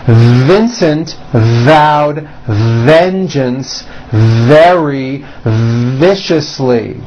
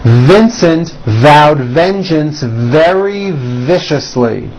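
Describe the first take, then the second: First: The sentence is spoken at a slow pace. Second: The sentence is spoken at a faster pace. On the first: "First slow" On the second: "Now a little bit faster"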